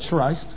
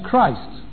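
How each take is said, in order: First: The word begins with a soft ch sound. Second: The word begins with a hard k sound. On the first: The speaker calls it wrong. "They don't say Christ" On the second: The speaker calls it right. "as in Christ"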